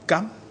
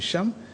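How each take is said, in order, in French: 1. Le mot commence par un son k. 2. Le mot commence par un son sh. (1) "certains vont prononcer Cam" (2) "au lieu de Cham"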